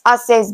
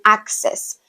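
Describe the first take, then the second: First: The double c is said as a plain s. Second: The double c is said as a full ks. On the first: The speaker calls it wrong. "access bank instead of saying" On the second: The speaker calls it right. "instead of saying access"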